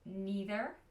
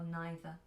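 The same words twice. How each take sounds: First: It is said with an American pronunciation. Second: It is said with a British pronunciation. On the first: "in American English, they pronounce it neither and either" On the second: "in British English, we pronounce it either or neither"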